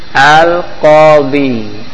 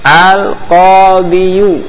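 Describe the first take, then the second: First: The word ends on 'di' with no final vowel. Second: The word ends with a 'yu' vowel sound. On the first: The speaker calls it right. "dibuang menjadi al-qadi, jadi sukun" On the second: The speaker calls it wrong. "yang tadinya dia harusnya dhamma ya"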